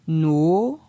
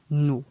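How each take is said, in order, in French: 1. La syllabe est prononcée sur un ton montant. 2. La syllabe est prononcée sur un ton bas. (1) "ton montant" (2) "Ton bas"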